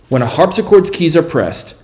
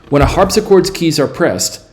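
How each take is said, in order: The two takes are said the same way.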